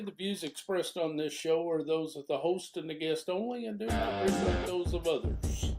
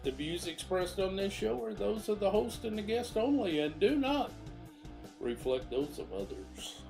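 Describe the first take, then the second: First: The voice is heard without background music. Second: The voice is heard over background music.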